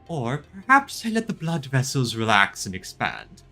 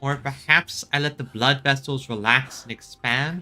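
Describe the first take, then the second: First: It is said in a put-on character voice. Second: It is said in his ordinary voice.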